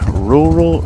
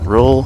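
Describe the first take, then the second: First: The word is said with two syllables. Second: The word is squeezed into one syllable. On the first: The speaker calls it wrong. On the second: The speaker calls it right.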